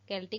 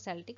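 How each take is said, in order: First: The word begins with a k sound. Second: The word begins with an s sound. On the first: "केल्टिक और सेल्टिक दोनों ही सही है" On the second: "केल्टिक और सेल्टिक दोनों ही सही है"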